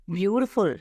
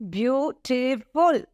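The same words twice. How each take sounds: First: Said in the usual way. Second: Beautiful slowly, beau-ti-ful syllable by syllable; syllables shown slowly. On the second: Shown as a demonstration. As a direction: draw Beautiful out so each syllable is counted. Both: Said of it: "three syllables".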